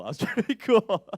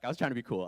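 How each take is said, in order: First: Higher and louder, laughing through it. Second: Said in the usual way. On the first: Real, not acted. To the audience, repeating the line while laughing. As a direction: break into real laughter on the line.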